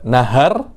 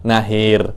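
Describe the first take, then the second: First: The second vowel is an open 'a'. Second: The second vowel is fronted toward 'i'.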